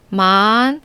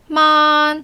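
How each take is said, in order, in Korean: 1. 음높이가 중간에서 높게 올라가요. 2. 음높이가 처음부터 끝까지 높고 평평하게 유지돼요.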